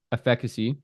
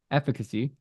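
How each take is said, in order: Both takes have the same delivery.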